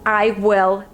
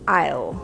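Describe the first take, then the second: First: It is said as two full words. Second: It is said as one contracted word.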